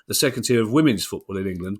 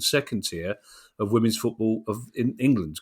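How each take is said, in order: First: The stress falls on women's football. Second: The stress falls on England. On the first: The speaker calls it right. "I should have put the stress on women's football" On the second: The speaker calls it wrong. "rather than England"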